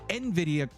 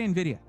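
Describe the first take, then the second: First: The final 'ah' sound is hit very hard. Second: The final 'ah' sound is said normally. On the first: "I got to say this like Zach" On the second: "You don't say NVIDIA"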